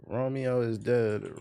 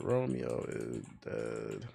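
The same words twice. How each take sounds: First: Said in the usual way. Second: Low, slow trailer narrator; movie trailer voice. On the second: Retold or imitated. Echoes the deep trailer narrator.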